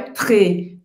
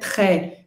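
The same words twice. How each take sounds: First: The vowel is said closed. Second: The vowel is said open. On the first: The speaker calls it wrong. "não é très. Tem muita gente que faz essa pronúncia errada, fechada" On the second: The speaker calls it right. "Muito em francês é très"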